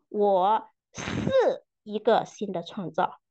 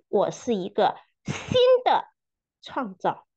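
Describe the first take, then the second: First: The stress falls on the word 是. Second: The stress falls on the word 新的. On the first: "强调每一个词" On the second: "强调每一个词"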